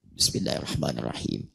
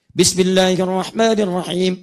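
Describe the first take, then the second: First: Soft, low, hushed basmalah; silent recitation. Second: Slow, full-voiced, louder basmalah; loud recitation. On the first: Teacher demonstrates sir reading, soft and hushed. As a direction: keep it to yourself, barely audible. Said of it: "saya sir". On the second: Teacher demonstrates jahar reading, loud and slow. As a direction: project it so the back rows hear. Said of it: "dikeraskan dengan keras-keras". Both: Shown as a demonstration.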